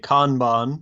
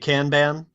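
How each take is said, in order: First: It is said with a British accent. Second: It is said with an American accent. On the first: "taking their lead from British English, would say Kanban" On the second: "if you're in America, you're likely to say Kanban"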